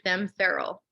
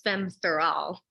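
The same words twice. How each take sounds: First: Feral is said as the ordinary English word. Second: Feral is said to rhyme with fatale. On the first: The speaker calls it wrong. "if you read it here in this country" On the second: The speaker calls it right. "the same kind of poetic lift"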